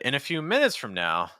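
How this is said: The pitch drops down at the phrase end. The speaker calls it right. "every thought group there, instead I went down"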